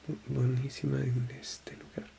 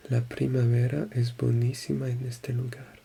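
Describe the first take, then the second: First: Whispering buenísima en este lugar under her breath; whispered practice. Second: Said in the usual way. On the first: Shown as a demonstration. Learner rehearsing a sentence quietly, whispered. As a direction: mouth the phrase in a whisper before saying it.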